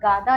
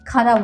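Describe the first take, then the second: First: The word begins with a voiced g sound. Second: The word begins with a breathy kh sound. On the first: The speaker calls it wrong. "गादा या कादा नहीं बोलते हैं" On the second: The speaker calls it right. "इसको खादा बोलते हैं"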